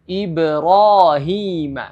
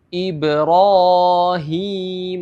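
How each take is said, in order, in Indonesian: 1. Vokal panjang hanya ditahan sebentar. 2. Vokal panjang dipanjangkan terlalu lama. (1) "Jadi dua harakat" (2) "itu salah. Jadi jangan sepanjang"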